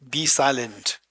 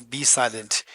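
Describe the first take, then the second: Both takes have the same delivery.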